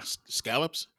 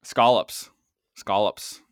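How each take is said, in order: First: Scallops with a short flat A, as in pal; questioning pronunciation. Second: Put-on scallops in a Boston accent. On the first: Real, not acted. Co-host queries how scallops is said, short-A pronunciation. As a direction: SCALLOPS said as "SKAL-ups", questioning. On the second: Host repeats scallops to tease a co-host, Boston accent. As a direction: say it Boston, punched out. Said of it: "are you doing it in, in your Boston accent".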